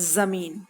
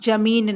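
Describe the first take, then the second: First: It begins with a buzzing 'z' sound. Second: It begins with a plain 'j' sound. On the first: The speaker calls it right. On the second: The speaker calls it wrong.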